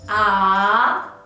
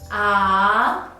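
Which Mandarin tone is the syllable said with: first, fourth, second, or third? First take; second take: second; second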